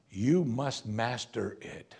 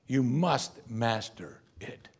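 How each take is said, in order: First: YOU stressed, slow and measured; slow stern warning. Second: MUST stressed, slow and measured; slow stern warning. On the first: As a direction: warn him slowly, weight on YOU. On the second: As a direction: hit the word must, slow and firm. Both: Acted. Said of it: "repeated warning, slow".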